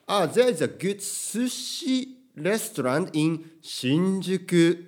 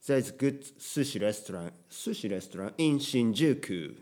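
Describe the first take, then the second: First: Slow English, "sushi" and "新宿" in heavy Japanese intonation; Japanese-sounding place names in English. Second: "sushi" and "新宿" with English intonation. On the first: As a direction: set the Japanese words apart, loud and Japanese. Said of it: "日本語っぽく言うと変です". (日本語っぽい発音の英語) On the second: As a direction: flow through "新宿" as an English speaker would. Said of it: "日本語のイントネーションで英語で話したら". (「新宿」を英語風に) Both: Shown as a demonstration.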